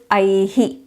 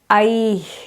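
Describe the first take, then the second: First: A short i vowel is echoed after the breath. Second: It ends in a breath with no echo vowel. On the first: "the South Indian way is I-hi" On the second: "it becomes I"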